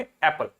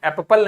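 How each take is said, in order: First: Said in the usual way. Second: "एप्पल" with both p's sounded, ऐप-पल; wrong doubled consonant. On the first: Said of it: "क्या पढ़ेंगे?". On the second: Shown as a demonstration. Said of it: "एप्पल नहीं पढ़ेंगे".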